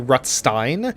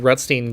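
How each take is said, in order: First: The name is said with a German pronunciation. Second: The name is said with a non-German pronunciation.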